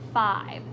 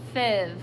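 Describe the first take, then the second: First: The vowel is a long I sound. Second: The vowel is a short I sound. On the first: The speaker calls it right. "The word is five, so we hear the I sound" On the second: The speaker calls it wrong. "that's what our short I sound is"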